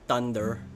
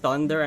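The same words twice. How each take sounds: First: The word begins with a hard t sound. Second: The word begins with a soft th sound. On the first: The speaker calls it wrong. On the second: The speaker calls it right.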